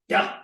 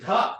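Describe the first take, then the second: First: "duh" with tongue on the teeth, no puff; unaspirated dental "duh". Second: "duh" with a puff of air; aspirated duh. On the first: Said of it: "just like a dental duh". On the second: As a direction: breathe out on the consonant of "duh". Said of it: "This would be aspirated duh". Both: Shown as a demonstration.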